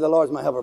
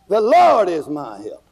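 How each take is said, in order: First: It is said plainly, without attitude. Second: It is said boldly, with attitude.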